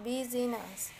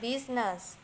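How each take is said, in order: First: The word is said with three full syllables. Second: The word is said with only two syllables. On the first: The speaker calls it wrong. "business is not business" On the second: The speaker calls it right. "but rather business"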